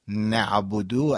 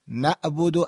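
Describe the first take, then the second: First: نعبدو with a deliberate throaty ayn; ayn pronounced. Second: نعبدو said without the ayn, as if from "abad"; ayn dropped. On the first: (نعبدو با عین) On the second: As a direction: leave out the throaty ayn in نعبدو. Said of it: "از ابد میاد". (نعبدو بدون عین) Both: Shown as a demonstration.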